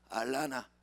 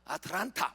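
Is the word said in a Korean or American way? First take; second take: American; Korean. First: It is said with American-style pronunciation. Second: It is said with Korean-style pronunciation. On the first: The speaker calls it right. "따라서 알라나" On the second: The speaker calls it wrong. "What? 못 알아들어요"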